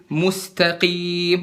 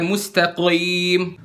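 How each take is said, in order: First: "Mustaqim" dengan qaf tebal, pelan; qaf tebal benar. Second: "mustaqim" dengan qaf enteng; qaf tipis salah. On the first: ("Mustaqim" qaf tebal) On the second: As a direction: ucapkan "mustaqim" ringan, salah. ("mustaqim" qaf tipis) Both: Shown as a demonstration. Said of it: "bukan mustaqim".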